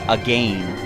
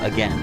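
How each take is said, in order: First: The second syllable rhymes with rain. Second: The second syllable rhymes with ten. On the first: "who out there actually says again" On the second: "instead of again"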